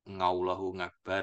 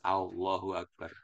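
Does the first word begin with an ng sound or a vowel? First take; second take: ng sound; vowel. First: The first word begins with an ng sound. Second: The first word begins directly with a vowel. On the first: The speaker calls it wrong. "Nggak boleh salah ngucap. Ngallahu Akbar gitu" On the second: The speaker calls it right. "Harus Allahu Akbar"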